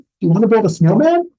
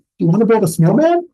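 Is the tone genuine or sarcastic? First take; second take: genuine; genuine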